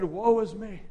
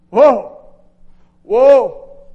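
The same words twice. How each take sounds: First: Said in the usual way. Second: "Woe" cried out much louder, drawn out; anguished cry. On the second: Acted. Isaiah crying woe before the Lord, loud lament. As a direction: wail it like a broken man.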